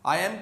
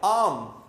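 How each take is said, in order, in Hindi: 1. दोनों शब्द अलग-अलग और पूरे बोले जाते हैं। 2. दोनों शब्द मिलकर एक छोटे शब्दांश में बदल जाते हैं।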